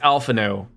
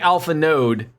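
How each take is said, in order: First: The name ends without any d sound. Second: The name ends with a clear d sound. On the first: The speaker calls it right. "when it's alpha no" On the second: The speaker calls it wrong. "I think I say the D a little too much"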